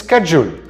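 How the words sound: The word is said with an American pronunciation. "In America, this word is schedule"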